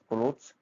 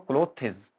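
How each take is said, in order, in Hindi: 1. यह एक अक्षर है, जो व्यंजनों के गुच्छे पर खत्म होता है। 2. इसमें एक अतिरिक्त अंतिम अक्षर है, clo-thes।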